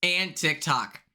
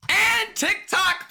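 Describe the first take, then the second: First: Said in the usual way. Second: "And TikTok" much higher, slow, drawn out and indignant; outraged emphasis. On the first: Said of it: "And TikTok, people!". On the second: Real, not acted. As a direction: stretch "And TikTok" high in disbelief.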